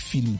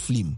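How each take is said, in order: First: The L comes after the vowel. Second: The L comes before the vowel. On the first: The speaker calls it right. "Moi, j'ai dit film" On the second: The speaker calls it wrong. "C'est comme s'il y a L avant le I"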